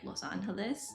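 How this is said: The name is pronounced with Spanish sounds. This is the original form of the name. "in Spanish it would be like"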